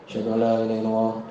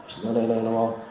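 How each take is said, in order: The two takes are said the same way.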